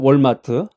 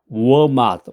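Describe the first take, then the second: First: It is said with a Korean accent. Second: It is said with an American accent. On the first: The speaker calls it wrong. "한국식으로 이제 정확한 발음이 월마트 이건데 미국에서는 그렇게 하면 못 알아들어요" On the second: The speaker calls it right. "워맛이라고 그래야 되는데"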